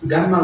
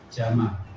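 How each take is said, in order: First: The name starts with a hard G sound. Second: The name starts with a J sound. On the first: This is the Egyptian dialect form. "jim jadi go" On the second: This is the standard Arabic form. "bukan Gamal sebenarnya, Jamal"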